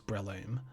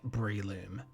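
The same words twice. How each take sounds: First: The first syllable does not sound like 'brie'. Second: The first syllable sounds like 'brie'. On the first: The speaker calls it right. "it is pronounced as I've been saying" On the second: The speaker calls it wrong. "before I looked it up, I was pronouncing it Breloom. Um, hence this picture of some brie and a loom"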